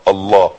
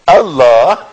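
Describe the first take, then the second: First: The word is repeated flatly, over and over. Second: The word is said once as a delighted exclamation. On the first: The word is drilled mechanically. The speaker calls it wrong. "فنقعد نقول قدامه 60 مرة الله الله الله" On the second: Something beautiful was just done. The speaker calls it right. "لما يعمل حاجة جميلة نقول الله ... الله كده"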